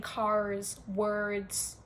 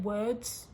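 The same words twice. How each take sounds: First: CARS and WORDS drawn out with American Rs; American accent. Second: Said in the usual way. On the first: Retold or imitated. Teasing foreigners who have turned American, imitated American accent on CARS, WORDS. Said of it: "have genuinely changed into American". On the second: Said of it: "You're not saying words".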